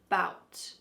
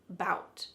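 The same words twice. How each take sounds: First: The first vowel sound is dropped from the word. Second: The first vowel sound is dropped from the word.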